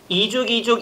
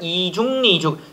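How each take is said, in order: First: The final k links straight into the next syllable. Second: An extra n sound begins the third syllable. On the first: "이죽이죽도 되지만" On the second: "이중리죽도 허용된다"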